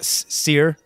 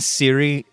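First: The name sounds like 'seer'. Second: The name sounds like 'Siri'. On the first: The speaker calls it right. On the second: The speaker calls it wrong. "I have been calling her Siri because I'm an idiot"

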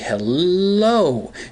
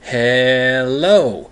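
First: The l sound is drawn out long. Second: The e sound is drawn out long. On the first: "If you add a couple L's to it" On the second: "you add a couple E's in there"

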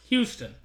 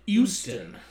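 First: The word begins with an H sound. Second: The word begins without an H sound.

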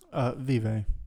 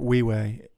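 First: The word is said with an English pronunciation. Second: The word is said with a Latin pronunciation.

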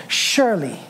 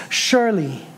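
Both takes have the same delivery.

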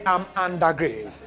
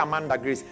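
First: The phrase is said slowly and deliberately. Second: The phrase is said quickly, run together. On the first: It means living in a state of divine grace. The speaker calls it right. "Yeah. Ah, you now got it, right?" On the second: It sounds like a person named Grace. The speaker calls it wrong. "Don't say it fast, otherwise you'll be mentioning somebody"

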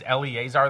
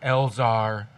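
First: The name is said with extra vowel syllables. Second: The name is said without the E and A. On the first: The speaker calls it wrong. "It said Eleazar" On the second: The speaker calls it right. "the E and A is silent. It's Elzar"

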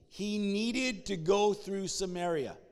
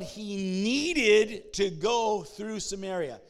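First: No single word is given extra stress. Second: The word needed is given extra stress. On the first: "Say that with me" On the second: "Say it again, but emphasize needed"

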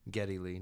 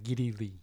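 First: The first syllable sounds like 'geh'. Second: The first syllable sounds like 'gih'. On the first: The speaker calls it right. "Geddy Lee, not Geddy Lee" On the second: The speaker calls it wrong. "I'm going to keep calling him [name]"

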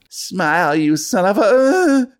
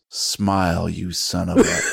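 First: It is said in Ranger Rickenbacker's voice. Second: It is said in his normal narrating voice.

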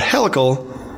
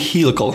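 First: The first part sounds like helicopter. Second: The first part sounds like helix. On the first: "but helical, helicopter" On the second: "I like to say helical because of helix"

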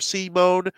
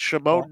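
First: The name begins with an s sound. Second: The name begins with an sh sound. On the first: "is like very the French or English way" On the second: "it's very Slovakian to do the sh at the beginning"

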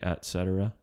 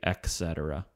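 First: The first word is said clearly as et. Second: The first word is not said as et. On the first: The speaker calls it right. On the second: The speaker calls it wrong. "Don't say"

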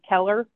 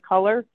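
First: The first vowel sounds like the e in 'bed'. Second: The first vowel sounds like the u in 'cut'. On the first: This is how the speaker's regional accent says it. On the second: This is the usual pronunciation elsewhere.

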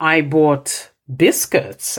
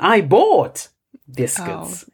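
First: The stress is on biscuits. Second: The stress is on bought.

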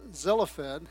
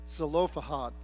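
First: One syllable of the name is left out. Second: Every syllable of the name is pronounced. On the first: The speaker calls it wrong. "I had inadvertently taken a syllable out of there" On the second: The speaker calls it right. "It's pronounced Zelophehad"

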